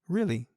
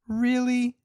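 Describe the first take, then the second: First: It sounds calm and attentive. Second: It sounds sharp and confrontational. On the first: The listener is following and accepts the story. "I'm actively listening" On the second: The listener is challenging the story. "That's got a different inflection to it"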